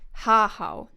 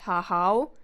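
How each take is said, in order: First: The stress is on the first syllable. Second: The stress is on the second syllable. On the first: The speaker calls it right. "It's stressed on the first R" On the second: The speaker calls it wrong. "not ha-how"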